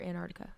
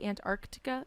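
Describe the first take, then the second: First: The 'c' before the 't' is dropped entirely. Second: The 'c' before the 't' is clearly pronounced. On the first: "I just replaced the C" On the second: "Do you pronounce the the second or the C in it?"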